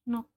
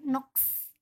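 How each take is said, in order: First: It ends in a k sound without s. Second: It ends in a k sound followed by s. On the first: The speaker calls it right. "Kita bacanya adalah nok" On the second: The speaker calls it wrong. "Bukan noks"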